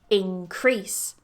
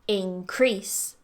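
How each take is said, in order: First: The stress is on the second syllable. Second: The stress is on the second syllable.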